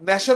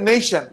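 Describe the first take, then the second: First: The first vowel is not an 'ay' glide. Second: The first vowel is an 'ay' glide. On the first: The speaker calls it wrong. "ন্যাশন না বলে" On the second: The speaker calls it right. "বলতে হবে নেশন, মানে এর উচ্চারণটা এই হয়ে যাচ্ছে"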